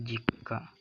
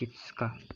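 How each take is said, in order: First: The 'k' is held with no extra syllable. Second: A 'tsu' sound is pronounced in the middle. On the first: The speaker calls it right. "Ini juga sama nih, jika" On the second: The speaker calls it wrong. "bukan jitska"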